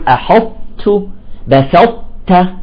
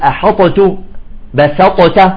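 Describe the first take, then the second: First: The ṭāʼ glides smoothly into a soft tāʼ. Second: The ṭāʼ is bounced with a heavy release. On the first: The speaker calls it right. "تأخذ الطاء ثم تنزل بانسيابية إلى التاء" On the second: The speaker calls it wrong. "إذا قلقلنا تصبح ثقيلة على النطق"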